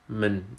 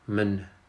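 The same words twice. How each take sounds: First: The vowel is reduced to a weak schwa. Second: The same.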